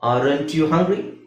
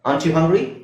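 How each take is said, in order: First: The first word is said in full, 'aren't'. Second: The first word is shortened to 'ant', said fast.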